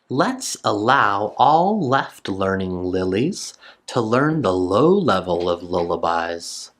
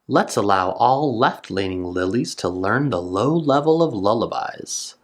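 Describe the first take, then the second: First: It is read at a slower pace. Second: It is read at a faster pace.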